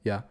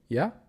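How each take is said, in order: First: The pitch falls at the end. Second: The pitch rises at the end. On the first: The person is assured. "With the down inflection, downwards inflection uh, suggests assurance" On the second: The person is hesitant. "Upward inflection suggests hesitation"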